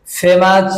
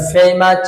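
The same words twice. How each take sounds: First: ফেমাস with a pure e; unglided first vowel in ফেমাস; wrong pronunciation. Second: ফেমাস opening with an ei glide; drawn first diphthong in ফেমাস; correct pronunciation. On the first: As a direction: say ফেমাস as feh-mas, no glide. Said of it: "ভুল". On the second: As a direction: say ফেমাস as fay-mas. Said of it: "সঠিক উচ্চারণ". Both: Shown as a demonstration.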